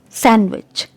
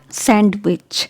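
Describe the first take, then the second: First: The D sound is silent in the word. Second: The D sound is pronounced in the word. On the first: The speaker calls it right. "letter D is silent" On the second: The speaker calls it wrong. "It's not sandwich"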